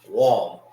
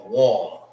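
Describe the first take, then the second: Both takes have the same delivery.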